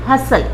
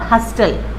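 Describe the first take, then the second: First: The word is said with no t sound. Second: The word is said with a t sound. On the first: The speaker calls it right. "टी silent" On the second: The speaker calls it wrong. "Not"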